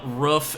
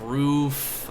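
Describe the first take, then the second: First: Roof is said with a regional vowel. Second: Roof is said with the standard vowel. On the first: This is how the speaker says it. "roof instead of roof" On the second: This is how it is usually said. "instead of roof"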